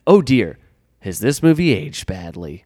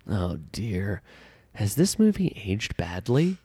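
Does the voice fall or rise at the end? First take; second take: fall; rise. First: The voice falls at the end like a statement. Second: The voice rises at the end like a question. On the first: It declares that the movie aged badly. The speaker calls it right. "Is that better?" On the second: It asks whether the movie aged badly. The speaker calls it wrong. "No, that's not a question"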